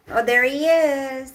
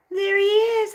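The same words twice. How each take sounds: First: Loud, bright hello to the dog; excited greeting. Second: Very high, loud squeal of delight. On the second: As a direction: squeal at the dog. Greeting dog high. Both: Real, not acted.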